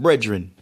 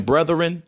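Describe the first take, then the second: First: "brethren" said as "bredren"; Jamaican pronunciation. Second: Said in the usual way. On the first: Shown as a demonstration. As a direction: turn the th of "brethren" into d. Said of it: "they said brethren". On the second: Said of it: "Instead of saying brethren".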